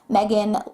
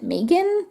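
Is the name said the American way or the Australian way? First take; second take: American; Australian. First: The name is said with an American pronunciation. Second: The name is said with an Australian pronunciation. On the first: "I'm saying Megan because I'm being influenced by Meghan Markle" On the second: "in Australia we do pronounce it Megan"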